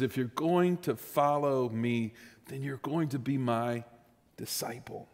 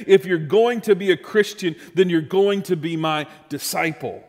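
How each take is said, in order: First: Hushed. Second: Louder, firm proclamation of the call; bold statement. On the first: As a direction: lean in and let it fade to a breath. Same words, said hushed. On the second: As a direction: declare it to the whole room. Jesus' words, stated boldly. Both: Shown as a demonstration.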